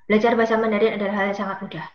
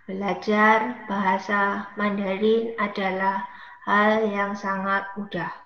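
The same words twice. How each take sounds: First: The sentence is spoken at a fast pace. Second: The sentence is spoken at a slow pace.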